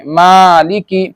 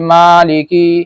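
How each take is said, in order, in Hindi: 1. पहले अक्षर के बाद के छोटे स्वर जल्दी बोले जाते हैं। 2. पहले अक्षर के बाद के छोटे स्वर खींचे जाते हैं। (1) "बल्कि जल्दी करके पढ़ेंगे" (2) "बाज क्या पढ़ देते मालिकी, ये गलत है"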